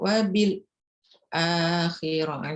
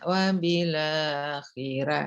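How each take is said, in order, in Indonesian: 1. Ada jeda singkat setelah huruf lam. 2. Huruf lam langsung menyambung ke kata berikutnya. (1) "jadi kayak sakta itu kan" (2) "Nah itu taklil itu"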